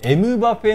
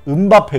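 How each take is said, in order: First: It is said the Japanese way, starting 'emu'. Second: It is said the Korean way, starting 'un'.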